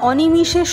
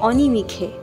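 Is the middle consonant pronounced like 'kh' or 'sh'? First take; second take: sh; kh. First: The middle consonant is a 'sh' sound. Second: The middle consonant is a 'kh' sound. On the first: "অনিমিষে শব্দটাকে" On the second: "কাব্যি করে বলেছেন"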